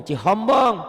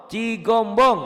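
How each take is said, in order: First: Cihombong, high and loud, H replacing the G; loud mocking Cihombong with an H; mock wrong H. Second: Cigombong high and loud with a hard G; loud emphatic Cigombong, G not H; corrected G. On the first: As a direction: shout CIHOMBONG as the wrong version with "ho". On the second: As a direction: drive home CIGOMBONG with a firm "go". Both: Shown as a demonstration. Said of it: "bukan Cihombong".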